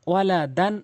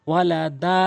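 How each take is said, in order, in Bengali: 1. শব্দটি দ্রুত শেষ হয়, একটি ছোট স্বরধ্বনি আর ন দিয়ে। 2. শব্দটি একটি টানা দীর্ঘ আ-স্বর দিয়ে শেষ হয়। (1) "তানভিনও দ্রুত পড়তে হয়" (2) "যখন ওয়াকফ করবেন দুই জবরওয়ালা হরফে, তখন এক জবর বাদ দিয়ে এক আলিফ টেনে পড়বেন"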